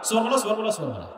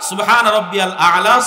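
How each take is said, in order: First: The phrase is rushed and slurred into fewer syllables. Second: The phrase is said slowly with every word clear. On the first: The speaker calls it wrong. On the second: The speaker calls it right.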